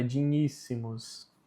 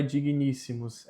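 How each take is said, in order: First: "digníssimos" as "di-nhíssimus". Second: "digníssimos" with a hard g, "di-gui-níssimos"; wrong gn pronunciation. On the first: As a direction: soften the gn in "digníssimos" to a "ny" sound. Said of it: "tem som de N H". ("digníssimos" com som de nh, "dinhíssimus") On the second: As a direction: separate g and n in "digníssimos". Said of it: "Novamente o G com o N". ("digníssimos" com g duro, "diguiníssimos") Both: Shown as a demonstration.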